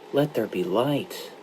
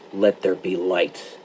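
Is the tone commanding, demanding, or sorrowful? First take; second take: sorrowful; demanding. First: It is said as a sorrowful request. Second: It is said as an insistent demand.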